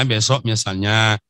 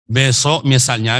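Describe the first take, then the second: First: Said in the usual way. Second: Besok misalnya said slowly, besok leaned on and louder; slow, weighted besok; stressed besok. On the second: Shown as a demonstration. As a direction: set up the example by leaning on besok.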